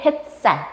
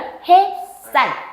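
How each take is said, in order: First: A brief stop closure comes before the tense s. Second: No stop closure comes before the tense s. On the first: People say it this way because of the spelling. "디귿 부딪혀서 쌀 요렇게 발음한다는 거야" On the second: This is the standard pronunciation. "뭐야?"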